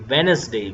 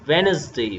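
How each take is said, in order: No difference in how they are said.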